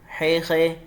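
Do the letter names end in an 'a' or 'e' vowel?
e. The letter names end in an 'e' vowel. This is the Urdu way of saying the letters. The speaker calls it wrong. "ये नहीं पढ़ना"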